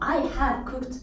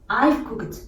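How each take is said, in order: First: The word have is said in full. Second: The word have is contracted to a v.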